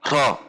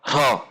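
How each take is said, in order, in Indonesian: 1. Suku kata itu diucapkan dengan dorongan udara. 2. Suku kata itu diucapkan dengan dorongan udara.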